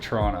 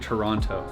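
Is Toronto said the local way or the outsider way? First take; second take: local; outsider. First: It is said the way locals pronounce it. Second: It is said the way outsiders pronounce it. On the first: The speaker is from the city. The speaker calls it right. "You gotta say Toronto" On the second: The speaker is not from the city. The speaker calls it wrong. "You don't say Toronto. That's how you know when someone's not from here"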